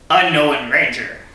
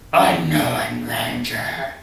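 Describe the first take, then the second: First: It is read in a normal voice. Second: It is read in a devilish voice.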